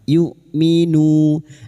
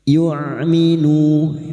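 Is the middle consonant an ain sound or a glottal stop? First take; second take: glottal stop; ain sound. First: The middle consonant is a clean glottal stop. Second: The middle consonant is a throaty ain sound. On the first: The speaker calls it right. "ini hamzah sukun" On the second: The speaker calls it wrong. "jangan tertukar ain"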